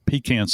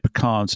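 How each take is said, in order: First: The word sounds like 'pee can'. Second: The word does not sound like 'pee can'. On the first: "My granny used to say pecans, something you keep under the bed" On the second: "I say pecans"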